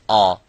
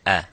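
First: The sound is heavy, with a full mouth. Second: The sound is light, without a full mouth. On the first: The speaker calls it wrong. "with the attribute of full mouth by saying ah" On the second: The speaker calls it right. "but it is a"

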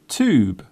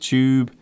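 First: The word begins with a hard T sound. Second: The word begins with a ch sound. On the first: "In American English, the hard T is often used" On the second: "Do you notice how I pronounce the word tube? The first part of the word sounds like chair"

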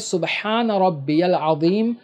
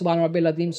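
First: The phrase is recited slowly and calmly. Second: The phrase is recited very quickly. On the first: The speaker calls it right. "आपको सही तरीके से इत्मीनान से पढ़ना है जैसा मैंने आपको बताया" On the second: The speaker calls it wrong. "कुछ लोग बहुत जल्दी जल्दी पढ़ते हैं"

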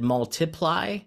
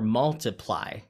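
First: The stress falls on a later syllable. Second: The stress falls on the first syllable. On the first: The speaker calls it wrong. "Is it multiply or multiply?" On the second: The speaker calls it right. "B is correct. That's the way that we usually pronounce the word"

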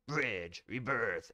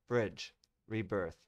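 First: It is said in a special put-on voice. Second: It is said in his normal voice.

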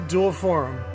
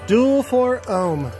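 First: Four and ohm blur together into one word. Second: Four and ohm are said as separate words. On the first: The speaker calls it wrong. "my talk to text always thinks I'm saying forum" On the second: The speaker calls it right. "I gotta enunciate that"

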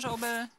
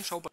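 First: The name is pronounced clearly and carefully. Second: The name is pronounced in a slurred, sloppy way.

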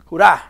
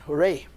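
First: The cheer is said the Russian way, hurrah. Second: The cheer is said the English way, hooray. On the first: The speaker calls it right. "you say hurrah" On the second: The speaker calls it wrong. "you don't say hooray"

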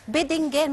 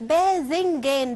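First: The second consonant is a plain d sound. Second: The second consonant is a soft dh sound. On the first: This is the everyday spoken form. "احنا يا جماعه لما بنقولها ما بنقولش بتنجان" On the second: This is the formally correct form. "النطق الصحيح باذنجان بالذال"

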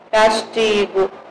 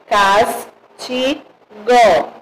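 First: The word is said smoothly without pauses. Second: Each syllable is said separately with pauses. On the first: It is ordinary reading. "deixa eu fazer aqui a leitura para vocês. Verem como fica diferente" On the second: It lets listeners hear each syllable's sound. "para sair o som bem forte para vocês"

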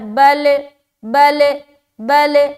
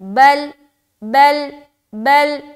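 First: The l sound ends with an echoing bounce. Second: The l sound stops smoothly without a bounce. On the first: The speaker calls it wrong. "ये गलत है" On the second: The speaker calls it right. "ये करेक्ट है।"

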